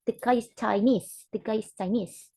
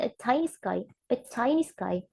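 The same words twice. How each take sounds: First: The guy is ChiNESE, stress on NESE; predicative stress. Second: A CHInese guy, stress on CHI; attributive stress. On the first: Teacher showing phrase stress, Chinese stressed on its last syllable. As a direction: land the stress on the end of Chinese. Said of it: "the stress is in the nis one". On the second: Teacher contrasting phrases, Chinese stressed on its first syllable. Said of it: "the way we stress the word is in the word". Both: Shown as a demonstration.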